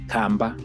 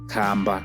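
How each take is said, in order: First: The word is short and higher in pitch. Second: The word is drawn out and deeper in pitch. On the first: It means small house. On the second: It means tortoise.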